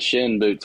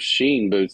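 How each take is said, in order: First: The brand name has a short 'i' vowel. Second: The brand name has a long 'ee' vowel. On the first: The speaker calls it right. "Say it right" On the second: The speaker calls it wrong. "I always mess it up"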